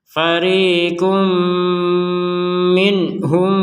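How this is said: The recitation runs on after 'minhum'. "Cara baca yang kedua kita melanjutkan"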